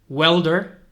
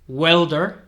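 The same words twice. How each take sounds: The two takes are said the same way.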